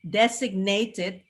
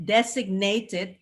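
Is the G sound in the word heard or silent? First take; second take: heard; heard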